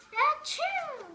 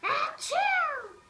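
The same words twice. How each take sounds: First: Loud, high achoo; sudden cartoon sneeze. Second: High, loud blasting achoo; huge achoo that needs to be softer; loud sneeze. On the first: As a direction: let it burst. Sneezing at the doctor. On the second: Acted. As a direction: sneeze right at your friend. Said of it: "try to sneeze more softly".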